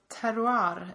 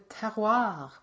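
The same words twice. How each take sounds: First: It is said with a Swedish pronunciation. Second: It is said with a French pronunciation.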